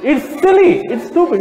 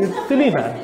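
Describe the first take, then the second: First: High, louder "It's silly" with a scoff; exclaimed. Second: Said in the usual way. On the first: Real, not acted. Speaker dismissing the plants excuse, exclaimed high and loud. Repeated with different force.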